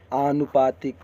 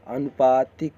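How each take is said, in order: First: आनुपातिक opening on a long aa; long-aa start to आनुपातिक; correct long vowel. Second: अनुपातिक opening on a short a; short-a start to अनुपातिक; wrong short vowel. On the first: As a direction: stretch the first aa of आनुपातिक. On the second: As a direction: keep the first a of अनुपातिक brief. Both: Shown as a demonstration. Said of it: "बड़ा आ की मात्रा रहेगा".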